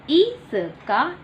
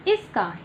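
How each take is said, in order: First: Teacher models इसका slowly for the class; slow drawn-out model. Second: Said in the usual way. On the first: Shown as a demonstration. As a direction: say इसका very slowly, rising at the end. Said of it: "slow model". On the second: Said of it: "normal take".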